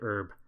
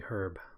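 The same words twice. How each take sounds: First: The word is said the American way. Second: The word is said the Irish way. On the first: "I think Americans say it herb" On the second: "in Ireland, where I'm from, we say herb. Like the name herb"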